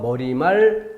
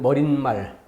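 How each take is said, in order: First: No extra n sound is added before mal. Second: An extra n sound is added before mal. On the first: The speaker calls it right. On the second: The speaker calls it wrong.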